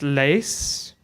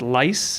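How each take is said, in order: First: The name has an 'ee' vowel sound. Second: The name has an 'eye' vowel sound. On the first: The speaker calls it right. "My wife is a Dutch speaker, so she says it's Lees" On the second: The speaker calls it wrong. "otherwise we end up at lice, and that doesn't sound very nice"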